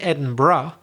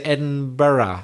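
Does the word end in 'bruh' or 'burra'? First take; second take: bruh; burra. First: The ending is a short 'bruh' sound. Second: The ending is a two-syllable 'burra' sound. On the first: "You don't say Edinburgh" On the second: "So you put a burra there"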